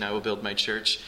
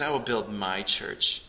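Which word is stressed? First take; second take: will; my. First: The word "will" carries the main stress. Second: The word "my" carries the main stress. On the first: The building of the church is guaranteed. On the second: The church belongs to him and is precious.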